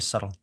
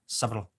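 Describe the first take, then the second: First: The B in the middle is silent. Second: The B in the middle is clearly sounded. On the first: "you don't have to pronounce the B at all" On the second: "But if you do, you sound hella smart. Check this out"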